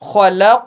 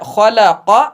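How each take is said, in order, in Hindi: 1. शब्द एक रुके हुए व्यंजन पर खत्म होता है। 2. शब्द एक छोटे स्वर के साथ खत्म होता है। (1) "जज्म मानकर पढ़ेंगे खलक" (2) "लिखा है खलक"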